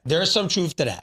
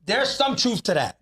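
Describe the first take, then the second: First: Said in the usual way. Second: "There's some truth to that" said higher and slower, leaning on "some"; slow down and press "some" in "There's some truth to that"; emphatic, slower. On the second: Shown as a demonstration.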